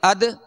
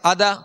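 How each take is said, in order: First: The final consonant bounces without an added vowel. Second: A full vowel is added after the final consonant. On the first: The speaker calls it right. "बल्कि अद इद उद" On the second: The speaker calls it wrong. "ऐसा भी कलकला नहीं कि जबर पैदा हो जाए, ... अदा नहीं कहेंगे"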